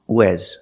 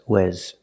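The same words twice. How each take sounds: First: The vowel sounds like 'eh' as in 'bed'. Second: The vowel sounds like 'eh' as in 'bed'.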